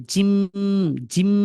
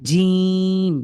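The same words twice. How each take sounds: First: জিম with a long hummed m; short vowel, then a lingering m on জিম; wrong drawn-out ending. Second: জিম with a long, steady ee before the m; correct long vowel. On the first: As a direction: hold the closing m of জিম instead of the vowel. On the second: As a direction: stretch the vowel of জিম, not the m. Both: Shown as a demonstration. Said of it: "এভাবে টানবেন না".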